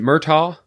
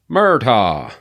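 First: The name is said in a plain accent. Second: The name is said in a Southern accent.

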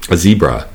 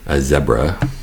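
First: Zebra is said the usual American way. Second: Zebra is said the Canadian way.

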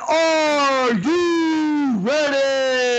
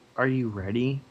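First: It is said loudly, with great enthusiasm. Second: It is said flatly, without enthusiasm.

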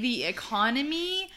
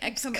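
First: The word is pronounced clearly and normally. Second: The word is pronounced in a garbled way. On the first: This is the intended word. The speaker calls it right. "I meant to say the economy" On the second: This is the slip that actually came out. The speaker calls it wrong. "what came out was not economy. It was like economy"

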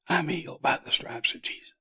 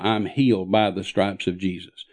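First: It is said in a very weak voice. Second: It is said in a strong, steady voice.

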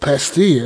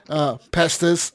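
First: The final s sound is silent. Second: The final s sound is pronounced.

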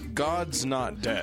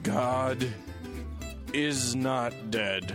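First: God and is are joined into God's. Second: God and is are said as separate words. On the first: The speaker calls it right. "it was a contraction" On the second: The speaker calls it wrong. "I said that wrong"

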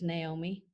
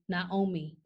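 First: The name is said with an American pronunciation. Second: The name is said with a Dutch pronunciation. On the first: "in America, it's Naomi" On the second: "the Dutch say Naomi"

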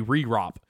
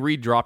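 First: The word has no d sound before the r. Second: The word has a d sound before the r. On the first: "He'd say re-rop" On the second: "he would never say re-drop"

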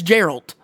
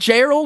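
First: The name ends with a T sound. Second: The name ends with a D sound. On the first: "It's Gerald" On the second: "It's like Gerald, but a T"

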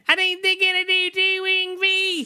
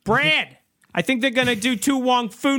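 First: It is said in an exaggerated Australian accent. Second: It is said without an Australian accent. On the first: "Are you asking for my Australian accent?" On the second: "That wasn't my Australian"

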